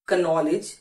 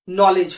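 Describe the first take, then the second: First: The word begins with an audible k sound. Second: The word begins directly with an n sound. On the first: The speaker calls it wrong. "ये चारों ही pronunciation बिल्कुल गलत है" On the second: The speaker calls it right. "के silent है"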